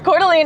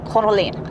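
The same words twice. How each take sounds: First: The name is given a local American pronunciation. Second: The name is given a French-style pronunciation. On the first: "I think that's how most people in Idaho actually say it" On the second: "the French way"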